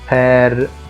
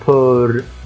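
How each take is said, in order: First: The vowel is a wide open 'eh' sound. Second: The vowel is a rounded 'o' sound. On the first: The speaker calls it right. "بفتح خالص بقى في الحرف" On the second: The speaker calls it wrong. "ما قلتهاش بور"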